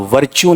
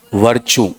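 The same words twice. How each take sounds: First: "वर्च्यू" said the common wrong way, as the mistake to avoid; wrong pronunciation. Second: "वर्च्यू" said the proper way, with a settled falling close; correct pronunciation. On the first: Teacher showing students the wrong way to say virtue. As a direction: give "वर्च्यू" as the students' mispronunciation. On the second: Teacher correcting the students' pronunciation of virtue. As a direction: land "वर्च्यू" firmly as the right form. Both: Shown as a demonstration. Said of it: "वर्च्यू नहीं".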